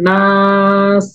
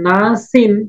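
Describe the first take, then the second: First: The word stops on s after a long vowel. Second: The word ends with an n sound. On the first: The reader stops at the end of the word. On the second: The reader continues without stopping.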